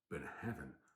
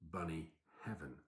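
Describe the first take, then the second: First: The name sounds like 'burn of heaven'. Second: The name sounds like 'bunny heaven'. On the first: The speaker calls it right. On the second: The speaker calls it wrong.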